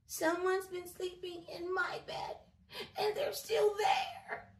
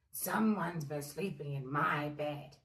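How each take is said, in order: First: High, loud squeaky cub; tiny baby bear, much higher and louder; crying Baby Bear. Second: Low, loud bear growl; gruff daddy bear, lower and louder. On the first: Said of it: "he cried". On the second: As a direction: growl like a cross papa bear. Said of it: "he grumbled". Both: A narrator's reading.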